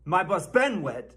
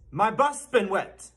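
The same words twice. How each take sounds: First: "my bus been wet" with BEEN punched; stress on BEEN. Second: "my bus been wet" with BUS raised high; stress on BUS. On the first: Mock teacher showing another common error, stress on "been". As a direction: hit "been", the third word. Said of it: "people put the stress on the wrong syllable". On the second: Mock teacher giving the correct version, stress on "bus". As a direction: punch "bus", letting the rest fall. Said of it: "It's my bus been wet". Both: Shown as a demonstration.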